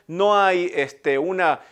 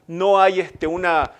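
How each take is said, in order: Both takes have the same delivery.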